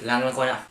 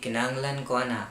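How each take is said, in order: First: It is said fast and aggressively. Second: It is said softly and calmly. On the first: "It sounds a little fast. It also sounds a little quite aggressive" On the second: "the Davao speaks a more soft, calm kind of Bisaya"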